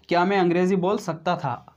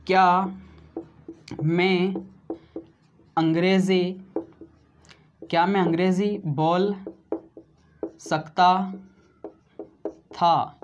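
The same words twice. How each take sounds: First: Said in the usual way. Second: Word by word with long pauses; dictating slowly to students; slow dictation. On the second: Shown as a demonstration. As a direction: say each word separately for notes. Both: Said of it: "क्या बना दोस्तों?".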